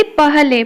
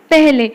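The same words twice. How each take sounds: First: पहले with an open a before h; पहले said letter by letter, vowel unchanged; as spelt. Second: पहले said peh-le; पहले as spoken Hindi pehle; a becomes e. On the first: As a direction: read पहले as pa-ha-le. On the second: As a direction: give पहले an e vowel before h. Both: Shown as a demonstration. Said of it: "तो कौन हेजिबो".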